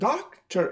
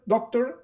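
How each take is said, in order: First: The second syllable is reduced to a schwa. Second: The second syllable is said with a full vowel. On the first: The speaker calls it right. "I have accent, doctor, and the other one is a schwa" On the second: The speaker calls it wrong. "I don't say doctor"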